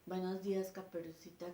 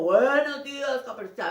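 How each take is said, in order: First: Said in the usual way. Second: Wolf voice. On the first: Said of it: "así no habla el lobo". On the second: Shown as a demonstration. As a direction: boom it like the wolf. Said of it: "con voz de lobo".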